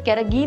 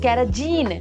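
First: The middle consonant is a hard g sound. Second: The middle consonant is a soft j sound. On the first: It is the actual pronunciation. "वैसे कैरागीन होता है उसका pronunciation" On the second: It is a memory trick linked to jeans. "कैराजीन जो आ गया ना"

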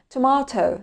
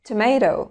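First: It is said with a British accent. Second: It is said with an American accent. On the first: "هننطق الأول البريتش أكسنت" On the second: "وبعدين الأمريكان أكسنت"

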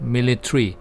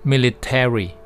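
First: It is said with a British accent. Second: It is said with an American accent. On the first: "อันนี้สำเนียงอังกฤษนะครับ" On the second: "แต่ถ้าเป็นสำเนียงอเมริกันก็จะเป็น"

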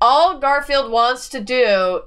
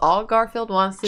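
First: It is said at a louder volume. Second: It is said at a normal, quieter volume.

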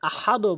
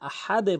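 First: The final d stops flat without a bounce. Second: The final d is released with a bounce. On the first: The speaker calls it wrong. "আহাদও বলবেন না" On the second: The speaker calls it right. "আহাদে বলতে হবে"

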